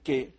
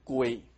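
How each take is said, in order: First: Zhangzhou accent, a plain e vowel without glide. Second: Quanzhou accent, a u-glide before the vowel. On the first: "漳州腔是念成给" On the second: "泉州腔的……而是念成归"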